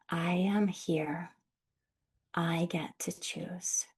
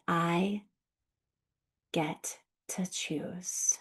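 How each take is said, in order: First: Slow, breathy whisper to yourself; slow whispered self-affirmation; whispered repeat. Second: Slow, soft spoken affirmation; gentle slow voiced affirmation. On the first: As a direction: whisper it back to yourself, gently. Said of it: "gently repeat that to yourself". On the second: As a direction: say it slowly and softly to yourself. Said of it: "you may get to say". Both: Shown as a demonstration.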